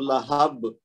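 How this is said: It stops on the final b with a bounce. "ये यहाँ पे अगर हम रुकेंगे तो बा का कलकला कुबरा हो जाएगा"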